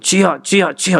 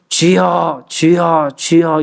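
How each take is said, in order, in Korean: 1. 한 마디 한 마디가 짧고 빠르게 끊어져요. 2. 한 마디 한 마디를 길게 늘여서 해요.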